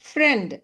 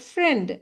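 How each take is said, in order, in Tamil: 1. உயிரெழுத்து குறில், 'e' மாதிரி. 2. உயிரெழுத்து குறில், 'e' மாதிரி.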